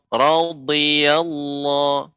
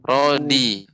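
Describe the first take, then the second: First: The consonant is a lateral dad sound. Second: The consonant is a plain d sound. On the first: The speaker calls it right. "radhiyallahu radhiyallahu, bukan rodi" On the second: The speaker calls it wrong. "bukan rodi, bukan huruf dal"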